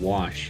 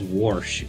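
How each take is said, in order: First: It is said plainly, with no r sound. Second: An r sound is added, like warsh. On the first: This is the usual way of saying it. "instead of wash" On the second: This is how an older relative from the region says it. "she she still says wash"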